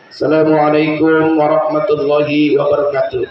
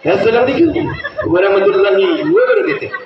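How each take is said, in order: First: It is said in a school principal's manner. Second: It is said in a showy artist's manner.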